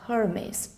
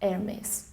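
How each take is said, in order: First: The word begins with a spoken H sound. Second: The word begins with a silent H. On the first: The speaker calls it wrong. "not Hermes" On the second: The speaker calls it right. "the H is silent"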